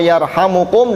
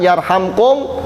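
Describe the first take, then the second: First: It is said with a u vowel before kum. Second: It is said without a vowel before kum. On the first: The verb is in the indicative mood. "dengan kondisi rofa" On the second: The verb is in the jussive mood as an answer to a command. "dengan kondisi jazm"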